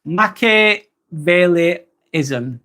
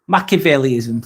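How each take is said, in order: First: "Machiavelliism" stretched out very slowly, syllable by syllable; slow careful pronunciation. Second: Said in the usual way. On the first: Shown as a demonstration. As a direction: sound out "Machiavelliism" slowly, piece by piece. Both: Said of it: "Dawn's helping me even more".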